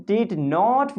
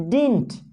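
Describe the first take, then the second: First: Said in the usual way. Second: "didn't" with the middle d swallowed; reduced didn't. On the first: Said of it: "Instead of speaking did not". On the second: Shown as a demonstration. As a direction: say "didn't" as dinnt. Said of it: "we can speak didn't".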